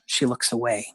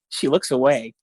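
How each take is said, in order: First: It is read in a sad, somber tone. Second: It is read in an amused, funny tone.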